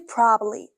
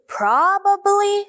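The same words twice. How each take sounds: First: The word is shortened to a quicker, reduced form. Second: Every syllable of the word is said fully. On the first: The speaker calls it right. "say probably" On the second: The speaker calls it wrong. "instead of saying probably"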